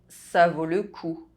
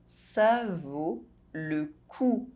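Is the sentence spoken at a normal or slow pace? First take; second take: normal; slow. First: The sentence is spoken at normal speed. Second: The sentence is spoken slowly. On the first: "I'll say it again at a normal pace" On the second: "you listen to the phrase in slow French"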